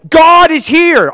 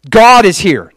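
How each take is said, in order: First: Very high, loud, stretched-out cry; emphatic buzzing insistence. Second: Loud, higher declaration; buzzing insistence. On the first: Answering family's lukewarm okay, emphatic buzzing insistence. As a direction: insist far harder, dragging out the words. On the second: Telling doubtful family who showed up, buzzing insistence. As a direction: state it firmly and excitedly, first try. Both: Acted. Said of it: "they were so buzzing".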